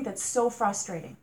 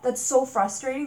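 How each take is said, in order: First: Said in the usual way. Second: Loud exasperation, rising on so; loud fed-up cry; frustrated outburst. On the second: Real, not acted. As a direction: let the frustration burst out. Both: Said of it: "Didn't mean to rant".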